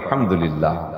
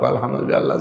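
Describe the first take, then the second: First: It is said in a delighted, satisfied tone. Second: It is said in a flat, resigned tone. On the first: The speaker has just eaten a lavish feast. "সেদিনও তো আলহামদুলিল্লাহ কন" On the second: The speaker has had only plain lentils and rice. "কিন্তু কিন্তু সুর পার্থক্য।"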